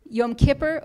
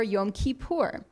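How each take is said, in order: First: "Yom Kippur" with stress on KIP, yom KIP-er; "Kippur" with a short i and reduced "er" ending; English pronunciation. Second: "Yom Kippur" with final stress, yom kee-POOR; "Kippur" with long ee and a full "oor" ending; Israeli Hebrew pronunciation. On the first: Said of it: "we might say Yom Kippur or Yom Kippur". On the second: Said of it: "influenced by Israeli Hebrew". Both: Shown as a demonstration.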